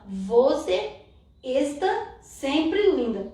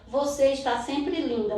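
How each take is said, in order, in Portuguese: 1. Tem acentuação e sotaque estrangeiros. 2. Tem acentuação e sotaque naturais do português. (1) "Mas como é que ele fala? Ele fala" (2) "uma frase que ele aprendeu"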